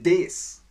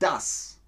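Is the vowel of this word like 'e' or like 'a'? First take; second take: e; a. First: The word is said with an e vowel. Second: The word is said with an a vowel. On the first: "In Österreichisch wird oft das wie des ausgesprochen" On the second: "Bedeutet das"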